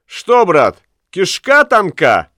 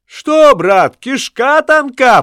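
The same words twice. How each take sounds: First: High teasing jeer, "кишка" drawn out; mocking taunt. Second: Higher, slow mocking echo, "тонка" stretched; echoed taunt. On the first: Ulenspiegel taunts the bargeman. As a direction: jeer at him. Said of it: "крикнул". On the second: Lamme echoes Ulenspiegel's taunt at the bargeman. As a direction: echo the jeer louder. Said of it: "подхватил Ламме". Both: A narrator's reading.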